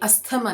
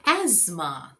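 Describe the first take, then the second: First: The t sound is pronounced. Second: The t sound is silent. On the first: The speaker calls it wrong. "ये अस्थमा नहीं है" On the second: The speaker calls it right. "यहाँ पे टी silent है"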